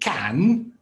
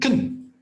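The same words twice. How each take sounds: First: The word has a full, stressed vowel. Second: The word has a weak schwa vowel. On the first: "I'm not saying can" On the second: "I'm saying can. ... a schwa"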